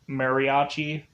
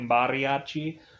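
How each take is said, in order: First: The word is said with an American accent. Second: The word is said with a Spanish accent. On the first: The speaker calls it wrong. "I'm pronouncing it the American way" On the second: The speaker calls it right. "but I'm sure it's probably mariachi"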